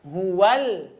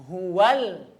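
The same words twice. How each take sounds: No difference in how they are said.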